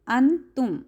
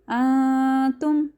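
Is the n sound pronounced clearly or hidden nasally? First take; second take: clear; hidden nasally. First: The n is pronounced as a clear n. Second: The n is hidden as a nasal sound. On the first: The speaker calls it wrong. "हम ऐसे नहीं करेंगे" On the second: The speaker calls it right. "हम नून की आवाज़ को नाक में छुपाएंगे"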